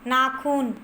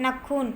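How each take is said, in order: First: नाखून with a long first "naa"; नाखून pronounced "naa-khoon"; correct form. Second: नखून with a short first vowel, "na-khoon"; नखून misspoken with a quick "nuh" start; incorrect form. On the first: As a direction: lengthen the first vowel of नाखून. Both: Shown as a demonstration. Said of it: "तो इसका शुद्ध रूप होगा".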